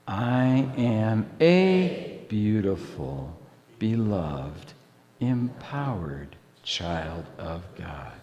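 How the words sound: The stress is on "a".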